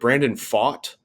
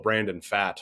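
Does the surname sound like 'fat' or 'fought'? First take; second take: fought; fat. First: The surname sounds like the word 'fought'. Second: The surname sounds like the word 'fat'. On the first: The speaker calls it right. "You got it, nailed it" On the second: The speaker calls it wrong. "jokingly p- called this poor fellow Brandon Fat"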